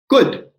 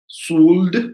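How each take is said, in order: First: The word begins with a K sound. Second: The word begins with an S sound. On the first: The speaker calls it right. "But no, it is pronounced as could" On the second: The speaker calls it wrong. "shouldn't it be pronounced something like that?"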